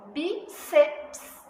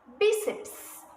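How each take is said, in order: First: "bíceps" slowly split as BÍ, ceps; syllable division. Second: Said in the usual way. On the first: Shown as a demonstration. Teacher shows how to divide it, "bíceps" split BÍ-ceps. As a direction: break "bíceps" in two, keeping the final ps together. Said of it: "a gente não separa o P e o S". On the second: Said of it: "é a penúltima que é acentuada".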